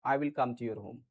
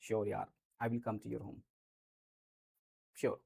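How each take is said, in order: First: Said in the usual way. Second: Low and soft, slowly and warmly; reassuring sure yaar, said soft and slow; soft, slow reassuring promise. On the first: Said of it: "simply बोल दिया मैंने". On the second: Shown as a demonstration. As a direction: promise it gently to a friend. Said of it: "ऐसे बोल दिया हमने".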